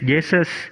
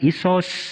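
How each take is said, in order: First: The name is pronounced the English way. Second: The name is pronounced the Greek way. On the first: "dengan nama Inggris" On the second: "dengan nama Yunani"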